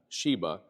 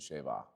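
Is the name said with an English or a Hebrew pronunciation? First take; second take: English; Hebrew. First: It is said with an English pronunciation. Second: It is said with a Hebrew pronunciation. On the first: "in English" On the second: "Actual Hebrew pronunciation"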